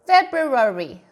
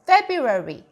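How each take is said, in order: First: The R sound after B is fully pronounced. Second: The R sound after B is not stressed. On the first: This is the full dictionary form. "원래는 이제 사전에 가보면 February" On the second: This is the simpler everyday form. "약식으로 간단하게 R 사운드를 강조하지 않고"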